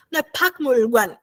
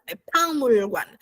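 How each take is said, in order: First: Pakmulguan with a hard k; wrong reading. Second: Palmulguan said slowly with an l; Palmulguan, slow, careful model; slow Palmulguan, k becomes l; correct reading. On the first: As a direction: say Pakmulguan, k sounded. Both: Shown as a demonstration.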